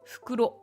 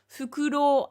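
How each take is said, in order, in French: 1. La voyelle finale reste courte. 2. La voyelle finale se prononce longue. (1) "sans allongement, c'est un sac" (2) "allongement, c'est une chouette"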